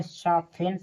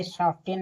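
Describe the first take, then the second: First: "सॉफ्टेन" as sof-en, no t; silent-t reading of "सॉफ्टेन". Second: "सॉफ्टेन" with an audible t after f; T sounded. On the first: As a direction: say "सॉफ्टेन" with f straight into -en. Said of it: "यानी टी है silent". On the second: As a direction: say "सॉफ्टेन" keeping the ft cluster. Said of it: "सॉफ्टेन नहीं पढ़ेंगे". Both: Shown as a demonstration.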